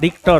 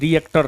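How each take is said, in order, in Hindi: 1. 'ri' के बाद कोई अतिरिक्त स्वर नहीं है। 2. 'ri' के बाद एक अतिरिक्त 'e' स्वर है। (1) "रिक्टर होगा" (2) "नहीं जी रिएक्टर नहीं होगा"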